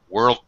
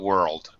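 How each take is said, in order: First: The final D is stopped and not released. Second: The final D is fully released and pronounced. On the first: The word runs into the next word. "world peace is a stop D because I'm combining it with the next word" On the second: The word ends the sentence. "I would actually fully pronounce this"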